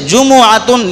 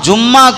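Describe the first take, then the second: First: There is a u vowel after j and m. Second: There is no u vowel after the m. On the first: The speaker calls it right. "जीम पर पेश, मीम पर भी पेश" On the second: The speaker calls it wrong. "ये बिल्कुल गलत तलफ़्फ़ुज़ है"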